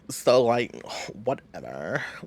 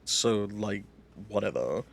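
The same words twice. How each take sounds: First: It is said in a put-on character voice. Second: It is said in the speaker's natural voice.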